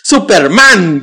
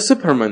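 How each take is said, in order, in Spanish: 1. El acento está en la última sílaba. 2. El acento está en la primera sílaba.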